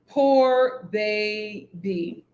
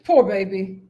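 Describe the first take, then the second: First: Slow pitying drawl. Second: Said in the usual way. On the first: Real, not acted. Pitying Raya, dragged out slowly.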